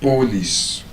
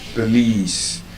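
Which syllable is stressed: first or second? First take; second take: first; second. First: The stress is on the first syllable. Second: The stress is on the second syllable. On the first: The speaker calls it wrong. "we cannot say police" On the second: The speaker calls it right. "It's police because there's a schwa sound in the letter O"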